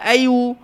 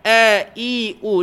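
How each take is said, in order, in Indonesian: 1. Bunyinya disambung jadi satu kata. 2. Tiap bunyi diucapkan terpisah, ada jeda. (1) "Dia tak boleh combine" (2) "dia nak kena sebut satu-satu"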